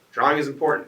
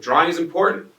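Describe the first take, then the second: First: Said in the usual way. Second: "Drawing" punched high and loud, rising; emphatic stress on drawing. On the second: Shown as a demonstration. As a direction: hit "Drawing" hard to make the point.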